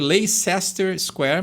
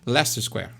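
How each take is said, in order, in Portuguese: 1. O nome é dito como está escrito, com todas as sílabas. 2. O nome é dito com metade das sílabas omitidas. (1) "se escreve Leicester Square" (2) "eles falam Leicester Square ... come metade das palavras"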